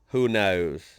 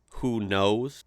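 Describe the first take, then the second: First: It is said imitating an Australian accent. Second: It is said in the speaker's own natural accent. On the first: "Let me let me try the up, like looking over an edge. ... it just sounds forced" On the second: "That's just like how I say it, right? That's natural"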